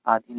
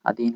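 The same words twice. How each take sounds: First: "आधीन" opening on a long आ; wrong pronunciation. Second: "अधीन" opening on a short अ; correct pronunciation. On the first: Teacher pointing out the written error, "आधीन" with long first vowel. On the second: Teacher giving students the right form, "अधीन" with short first vowel. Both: Shown as a demonstration. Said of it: "अधीन होता है".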